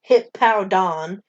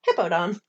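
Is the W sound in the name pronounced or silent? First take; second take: pronounced; silent. First: The W sound in the name is pronounced. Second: The W sound in the name is silent. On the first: "I just said the W" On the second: "it could be silent"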